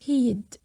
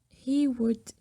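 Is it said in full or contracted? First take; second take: contracted; full. First: The two words are contracted into one. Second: Both words are said in full. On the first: "It can be abbreviated to be like this" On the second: "Pay attention to the pronunciation of he would"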